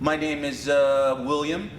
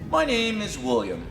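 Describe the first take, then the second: First: The speaker hesitates with a filler sound 'uh'. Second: The speaker speaks calmly without any filler sound. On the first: The speaker seems unsure or lacking confidence. The speaker calls it wrong. "Notice when you say mm or uh" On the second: The speaker seems relaxed and confident. The speaker calls it right. "when you pause and you relax"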